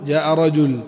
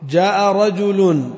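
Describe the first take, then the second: First: "رجل" ending cut with a stop; pausal form. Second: Slow "رجل" with its nunation sounded; slow full reading. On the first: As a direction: drop the tanween and stop on "رجل". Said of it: "pausal take". ("رجل" بالسكون في الوقف) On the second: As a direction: read slowly and sound the tanween. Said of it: "contrast with pausal take". (قراءة بطيئة مع تنوين "رجل") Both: Shown as a demonstration.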